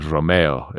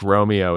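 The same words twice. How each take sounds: First: The name is said with a Spanish pronunciation. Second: The name is said with an American pronunciation. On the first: "is like maybe the Spanish" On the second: "is the American pronunciation"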